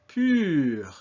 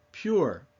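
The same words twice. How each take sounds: First: Pur with long ee-through-rounded-lips vowel; pur, fronted rounded vowel; French U. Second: Said in the usual way. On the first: Shown as a demonstration. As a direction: model French pur, drawn out with French r. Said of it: "French U sound. U. As in". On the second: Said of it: "pure, appropriately enough".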